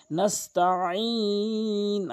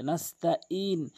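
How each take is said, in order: First: নাস্তাইন very slow, আইন from mid-throat; correct Nastain. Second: নাস্তাইন soft with a glottal হামজা; wrong Nastain. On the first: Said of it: "আইনটি হলকের মাঝখান থেকে". (শুদ্ধ, হলক থেকে আইন) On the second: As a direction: say নাস্তাইন lightly without আইন. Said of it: "অধিকাংশ লোক নাস্তাইন বলে". (ভুল, আইন ছাড়া) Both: Shown as a demonstration.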